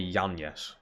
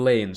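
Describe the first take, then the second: First: The name starts with a Y sound. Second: The name starts with an L sound. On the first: The speaker calls it right. "I meant to say Yan Yes" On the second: The speaker calls it wrong. "instead of saying Lanes"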